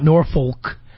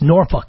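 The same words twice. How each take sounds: First: The second syllable is a full 'folk'. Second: The second syllable is a reduced 'fuck'. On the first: The speaker calls it wrong. "the correct pronunciation of this town is not Norfolk" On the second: The speaker calls it right. "It's Norfolk. ... any town that has fuck in it"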